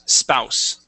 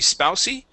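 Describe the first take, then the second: First: It ends on the s sound, no vowel. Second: It ends with an extra vowel sound. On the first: The speaker calls it right. "the E at the end, is silent" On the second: The speaker calls it wrong. "So it would not be spousey"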